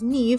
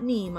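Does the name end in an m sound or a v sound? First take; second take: v sound; m sound. First: The name ends with a v sound. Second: The name ends with an m sound. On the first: The speaker calls it right. "just discovered that it was Neve" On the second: The speaker calls it wrong. "I've been pronouncing wrong"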